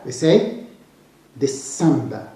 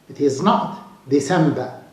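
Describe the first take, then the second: First: The stress is on the second syllable. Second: The stress is not on the second syllable. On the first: The speaker calls it right. "we should stress the sa" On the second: The speaker calls it wrong. "It is not December. No"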